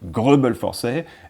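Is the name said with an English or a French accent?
French. The name is said with a French accent. "the French way of saying it"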